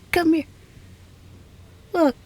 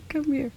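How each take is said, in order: First: Firmer and a bit louder, meaning it; insistent. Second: Said in the usual way. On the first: Acted. Scientist insisting her guest come look at the lab, firm call. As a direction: call them over again, this time insisting. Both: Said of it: "No, I mean it".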